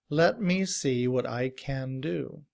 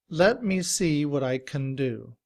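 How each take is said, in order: Both takes have the same delivery.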